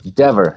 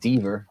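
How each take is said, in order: First: The name rhymes with the word clever. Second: The name does not rhyme with clever. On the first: The speaker calls it right. "it's Dever, Like clever" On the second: The speaker calls it wrong. "not Deaver"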